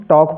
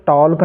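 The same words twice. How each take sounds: First: "टॉक" with vowel straight into k; silent L. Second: "टॉल्क" with an l before the k; faulty "टॉल्क", talk with a clear l; wrongly voiced L. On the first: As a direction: say "टॉक" without an l. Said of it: "एल silent है". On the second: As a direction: sound the L in "टॉल्क" as a mistake. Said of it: "टॉल्क नहीं पढ़ना". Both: Shown as a demonstration.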